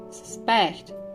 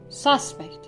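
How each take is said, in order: First: The stress is on the second syllable. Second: The stress is on the first syllable. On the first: It is used as a verb. "the verbs on the second" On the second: It is used as a noun. "the nouns stress is placed on the first syllable"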